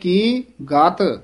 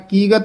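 First: A short pause separates the two words. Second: The two words run together without a pause. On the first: The speaker calls it right. "ਮੰਨੇ ਕੀ ਇੱਥੇ ਥੋੜ੍ਹਾ ਜਿਹਾ ਠਹਿਰਾ ਦੇ ਕੇ ਫਿਰ ਬੋਲਣਾ ਗਤ" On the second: The speaker calls it wrong. "ਕੀ ਗਤ ਨਹੀਂ ਕਹਿ ਦੇਣਾ"

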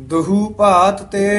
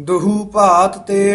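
No difference in how they are said.

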